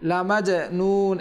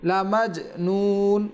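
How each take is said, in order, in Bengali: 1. ঝাঁকুনি দেওয়া j ধ্বনির পরে একটি অতিরিক্ত স্বরধ্বনি যুক্ত হয়। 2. j হালকাভাবে ঝাঁকুনি দেয়, কোনো অতিরিক্ত স্বরধ্বনি ছাড়াই।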